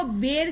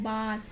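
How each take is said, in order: First: बेर with "ay" in place of "aa"; wrong pronunciation. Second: बार with a long open "aa"; "aa" vowel. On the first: Teacher asking why not this, बेर with "ay" vowel. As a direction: say बेर with A sounded as ए. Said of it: "इसको बेर क्यों नहीं बोला". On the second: Teacher showing how this word is said, बार with long "aa". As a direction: say बार with A sounded as आ. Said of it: "ए का उच्चारण आ आया है". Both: Shown as a demonstration.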